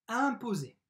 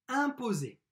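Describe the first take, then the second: The two takes are said the same way.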